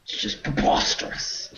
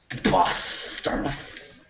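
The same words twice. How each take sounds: First: Hammed-up British indignation; affronted British gentleman's "preposterous"; mock British proper voice. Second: Slow, higher, hammed-up British "Preposterous"; drawn-out British voice. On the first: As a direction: scoff in a put-on British voice. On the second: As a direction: savour "Preposterous" slowly in mock British. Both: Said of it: "best word to say in that voice".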